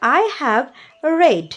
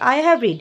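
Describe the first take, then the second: First: The verb is said with the vowel of 'red'. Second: The verb is said with the vowel of 'reed'. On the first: The speaker calls it wrong. "না" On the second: The speaker calls it right. "I have রিডই হবে"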